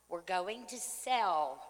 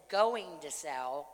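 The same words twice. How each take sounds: First: Said in the usual way. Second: Going to sell, with going stressed. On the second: Shown as a demonstration. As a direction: lean on the word going. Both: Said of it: "and I said going to sell".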